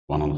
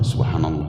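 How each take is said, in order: First: The phrase is said quickly and hurriedly. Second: The phrase is said slowly and carefully. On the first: The recitation is rushed and therefore faulty. The speaker calls it wrong. "Kalau hitungannya cepat, pasti salah" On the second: The recitation is calm and proper. The speaker calls it right.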